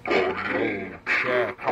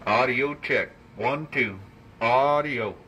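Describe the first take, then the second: First: Low, slow, metallic voice changer; clangy robot voice. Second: Radio voice with heavy echo; echo effect. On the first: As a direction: drag it out through a robot voice changer. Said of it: "Now let's turn on the voice changer". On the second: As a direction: speak through a mic with echo. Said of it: "Let's turn on some echo here". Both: Shown as a demonstration.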